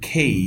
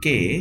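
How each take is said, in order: First: The k is aspirated with a puff of air. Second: The k is plain, without a puff of air. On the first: The speaker calls it right. "এটা হচ্ছে খেই" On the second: The speaker calls it wrong. "Not কে"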